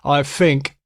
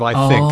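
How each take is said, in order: First: Think starts with an f sound. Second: Think starts with a th sound. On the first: "like when a British guy says" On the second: "instead of"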